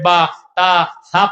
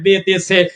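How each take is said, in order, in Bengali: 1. প্রতিটি অক্ষরের নাম 'a' স্বরধ্বনি দিয়ে শেষ হয়। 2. প্রতিটি অক্ষরের নাম 'e' স্বরধ্বনি দিয়ে শেষ হয়। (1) "আপনার নাতি এখন মক্তবে গিয়ে পড়তেছে" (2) "মাত্র বিশ বছর তিরিশ বছর আগেও একটা মানুষ মক্তবে গিয়ে বড় বড় মাওলানার কাছে পড়েছে"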